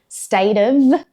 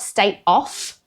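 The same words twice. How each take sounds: First: The word 'of' ends with a V sound. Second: The word 'of' ends with an F sound. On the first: The speaker calls it right. "it's pronounced with a the sound" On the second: The speaker calls it wrong. "It's not state of, because that spelling would be O F F"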